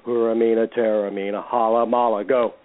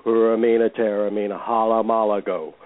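The two takes are said the same way.

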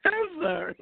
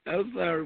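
First: High apology through laughter; sorry, still cracking up; laughing apology. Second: Said in the usual way. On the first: Real, not acted. Host apologising to co-host, still laughing. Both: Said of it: "it don't sound like you sorry".

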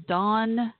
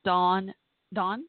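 First: "Dawn" clipped short, vowel brief and sharp. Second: "Dawn, Dawn" with the vowel drawn out long; stretched Dawn. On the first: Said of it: "Like shorter". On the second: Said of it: "like stretch out". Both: Shown as a demonstration.

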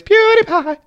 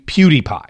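First: The name jumped way up high in a squeaky mock call; mock youtuber intro. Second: Said in the usual way. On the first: Podcast host mimicking the YouTuber's intro for listeners, high mock call.

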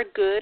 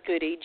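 First: GOOD said as one syllable, like the ordinary word; silent final E. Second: GOODY said as two syllables, ending in EE; sounded final E. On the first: Host guessing at guest's surname, silent final E. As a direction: say GOOD with no EE on the end. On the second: Host offering other surname reading, sounded final E. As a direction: say GOODY with an EE on the end. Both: Shown as a demonstration. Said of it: "not sure if she uses the E".

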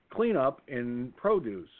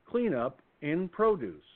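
First: Slow, drawn-out loudspeaker call; store PA announcement. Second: Slow, drawn-out loudspeaker call, repeated; store PA announcement. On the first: Store loudspeaker calling staff to a spill, slow PA voice. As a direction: announce it slowly over the store speaker. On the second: Store loudspeaker repeating the spill call, slow PA voice. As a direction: call it out slowly once more like the store speaker. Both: Retold or imitated. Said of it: "an announcement came over the loudspeaker".

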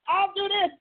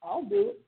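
First: High, eager mock yell without extra volume; imitating yelling crowd. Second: High, gentle voice lifting at the end; calm voice. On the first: One angel in the crowd bidding for the job, mock yelling. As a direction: call it out high, like an eager volunteer. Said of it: "they're all yelling". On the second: Acted. One spirit volunteering to God amid the roar, calm voice. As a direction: offer it lightly and calmly, pitched up. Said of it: "There's one calm voice says".

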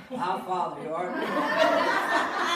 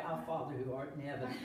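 First: Loud, drawn-out group prayer, hammed up; everybody praying. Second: Said in the usual way. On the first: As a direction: lead the whole bar in a big, slow recitation. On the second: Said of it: "we're gonna pray".

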